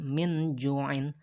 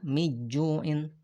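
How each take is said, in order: First: The n is said as a clear full n. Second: The n is dropped completely before the j. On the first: "bukan min ju'in" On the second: "bukan juga miju'in"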